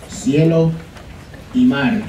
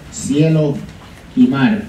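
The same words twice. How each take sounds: The two takes are said the same way.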